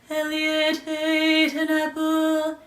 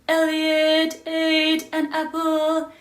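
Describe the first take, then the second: Both takes have the same delivery.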